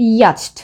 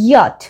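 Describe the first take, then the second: First: The word has a ch sound before the t. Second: The word ends with a plain t sound. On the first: The speaker calls it wrong. "Not ইয়াচট" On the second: The speaker calls it right. "ইয়াট, not ইয়াচট"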